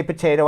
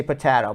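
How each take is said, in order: First: "potato" with a long A, po-TAY-to; S1's potato. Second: "potato" with a short flat A, po-TAH-to; his own potato. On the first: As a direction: say "potato" as po-TAY-to, the standard American way. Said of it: "You say potato". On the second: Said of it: "I say potato". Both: Shown as a demonstration.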